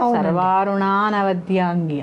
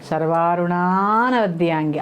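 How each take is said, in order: First: The vowel before 'navadyangi' is not heard. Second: A long 'aa' is held before 'navadyangi'. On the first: The speaker calls it wrong. "అక్కడ ఆ వచ్చింది చూసారా" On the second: The speaker calls it right. "ఆ పలకాలి బాగా"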